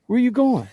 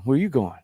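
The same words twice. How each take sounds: First: Squeaky high mock question; high, teasing "Where you going?"; playful high repeat. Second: Said in the usual way.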